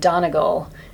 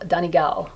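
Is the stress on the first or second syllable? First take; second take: first; second. First: The stress is not on the second syllable. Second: The stress is on the second syllable. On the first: The speaker calls it wrong. "I was saying Donegal" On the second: The speaker calls it right. "with the stress on the second syllable"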